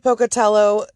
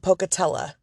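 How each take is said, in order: First: The name ends with an 'oh' vowel. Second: The name ends with an 'uh' vowel. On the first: This is the speaker's own pronunciation. "I say Pocatello" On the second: Some other people say it this way. "some people who call it Pocatella"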